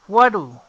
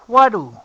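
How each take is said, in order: The two takes are said the same way.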